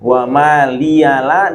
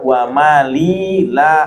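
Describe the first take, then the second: First: The ya carries a vowel: maliya. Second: The ya carries no vowel: mali.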